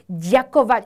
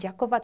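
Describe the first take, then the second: First: The word is said slowly and with exaggeration. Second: The word is said quickly and smoothly. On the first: This is a careful version for beginners, not everyday speech. The speaker calls it wrong. "누가 ďakovat 이렇게는 안 하겠죠" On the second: This is how people say it in everyday life. The speaker calls it right. "그냥 ďakovat 하지"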